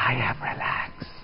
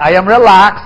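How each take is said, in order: First: Slow, soft unvoiced whisper. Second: Said out louder in full voice. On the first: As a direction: hush it, slowly. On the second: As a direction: project it to the room. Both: Shown as a demonstration.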